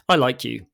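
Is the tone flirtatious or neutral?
neutral. It is said in a plain, neutral way. The speaker likes the listener as a friend. "same words, different intent"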